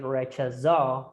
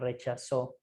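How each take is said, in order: First: The z is not pronounced like an s. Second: The z is pronounced like an s. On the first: It is how people in Spain say it. The speaker calls it wrong. "So you don't say rechazó" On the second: It is how people in Colombia say it. The speaker calls it right. "Z is like an S in Colombia"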